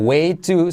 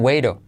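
First: The words are said fully and separately. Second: The words are run together and reduced. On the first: "mira que way to se convierte en" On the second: "se convierte en way to"

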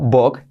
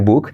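First: The vowel sounds close to an o. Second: The vowel sounds like a long u. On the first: The speaker calls it right. "La U como O" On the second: The speaker calls it wrong. "en lugar de book"

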